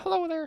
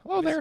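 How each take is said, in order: First: A Southern woman's voice, not especially aged. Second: An elderly Southern woman's voice, sounding aged. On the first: "I could do a Southern woman" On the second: "An old Southern woman"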